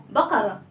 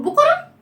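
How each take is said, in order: First: "بقرة" as "baqara", falling and unrounded; fatha on ba. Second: "بقرة" mispronounced as "buqara", rising in question; wrong rounded vowel. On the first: Teacher modelling the right word for children, "بقرة" as "baqara". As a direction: say "بقرة" with an open "a" after the b. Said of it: "بالباء فتحة". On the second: Teacher testing children's wrong answer, "بقرة" mispronounced as "buqara". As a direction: round the lips for a "bu" starting "بقرة". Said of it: "لا، ما بقولش بقرة". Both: Shown as a demonstration.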